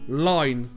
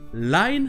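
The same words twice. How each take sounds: First: The vowel has an O sound slipped in. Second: The vowel glides from ah to ee.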